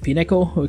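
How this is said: It is said with a foreign accent.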